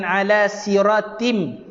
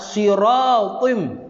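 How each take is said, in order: First: "siratim" with a light, plain t; wrong thin T. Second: Slow "Siratim" with a heavy, emphatic Arabic t; correct thick T. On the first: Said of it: "jangan ala siratim". ("siratim" dengan bunyi ta nipis) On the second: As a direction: draw out "Siratim" with a thick tho sound. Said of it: "Tim tak nak". ("Siratim" dengan bunyi tho tebal) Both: Shown as a demonstration.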